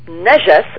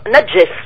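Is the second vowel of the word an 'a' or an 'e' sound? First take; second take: a; e. First: The second vowel sounds like 'a'. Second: The second vowel sounds like 'e'. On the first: This is the Arabic form of the word. "le mot najas en arabe" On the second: This is the Persian form of the word. "en persan, et ça se prononce najes"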